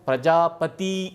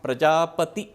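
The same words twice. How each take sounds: First: The final i vowel is long. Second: The final i vowel is short. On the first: The speaker calls it wrong. "कुछ लोगों को प्रजापति दीर्घ हो रहा" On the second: The speaker calls it right. "प्रजापति ह्रस्व इकार है"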